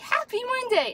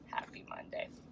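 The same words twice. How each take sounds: First: The greeting sounds bright and cheerful. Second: The greeting sounds flat and gloomy. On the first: The speaker welcomes the start of the week. The speaker calls it right. "let's say happy Monday instead of" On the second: The speaker dreads the start of the week. The speaker calls it wrong. "instead of happy Monday"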